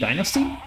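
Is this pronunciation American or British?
American. It is said the American way. "in some parts of the like American English should be dynasty"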